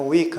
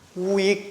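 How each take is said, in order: First: It starts with a quick, plain 'w' sound. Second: It starts with a distinct, drawn-out 'oo' vowel. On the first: The speaker calls it wrong. "다르다니까 안 되겠다" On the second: The speaker calls it right. "우익이라고 해야 돼"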